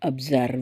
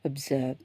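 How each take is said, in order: First: The r sound is clearly pronounced. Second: The r sound is silent. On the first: "அயர்லாண்டில் இருக்கிறவங்களுக்கு அந்த ஆரை கொஞ்சம் அப்படி தான் சொல்லுவாங்க" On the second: "இங்கிலாண்டில் இருக்கவங்க ஒரு சாஃப்ட் இது அப்சர்வ். ஸோ அந்த ஆறே சத்தம் கேட்காது"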